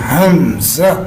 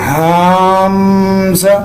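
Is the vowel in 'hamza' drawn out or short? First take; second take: short; drawn out. First: The vowel is kept short. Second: The vowel is drawn out long. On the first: The speaker calls it right. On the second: The speaker calls it wrong.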